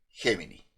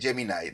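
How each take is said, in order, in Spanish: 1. La palabra termina en sonido 'ee'. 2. La palabra termina en sonido 'eye'. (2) "los norteamericanos no pueden pronunciar bien la palabra, entonces le dicen Gemini y termina con I"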